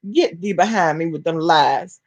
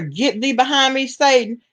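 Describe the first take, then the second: First: Said in the usual way. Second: Put-on a lightly raised, preachy quote of the old saying; quoting scripture. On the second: To a chat viewer with a wild theory, a light preachy quote. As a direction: toss out the Bible line like a church lady. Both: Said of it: "what they say".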